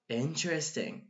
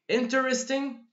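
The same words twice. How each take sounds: First: The word is said with three syllables. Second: The word is said with four syllables. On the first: "So four syllables to three syllables" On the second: "So four syllables to three syllables"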